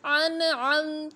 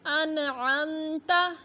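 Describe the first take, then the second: First: अन आमत ending on a silent त; slow recitation closing on अन आमत; pause form. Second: Said in the usual way. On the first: Shown as a demonstration. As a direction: stop on the त of अन आमत with no vowel after. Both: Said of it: "और वक़फ़ की हालत में पढ़ेंगे अन आमत".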